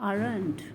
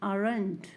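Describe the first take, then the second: No difference in how they are said.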